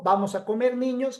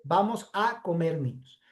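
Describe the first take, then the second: First: Put-on "vamos a comer" then a clear pause, "niños" lifted as a call to the children; a separate "niños" called out after "comer"; comma before niños. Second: "vamos a comer niños" in one breath, "niños" dropping low and soft as the object; no pause before "niños", let it sink; "niños" said as what gets eaten, no pause; run together. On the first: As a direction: break after "comer" and address "niños" with a rise. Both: Shown as a demonstration. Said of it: "Que son cosas distintas".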